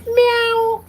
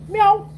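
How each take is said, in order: First: It sounds like a girl cat. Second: It sounds like a tomcat.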